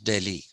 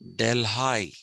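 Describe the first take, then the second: First: The name is said the Indian way. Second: The name is said the local American way. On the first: This is how the original city name is said. "they now don't pronounce it as Delhi" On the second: This is how the town in Ohio is called. "They pronounce it as Delhi"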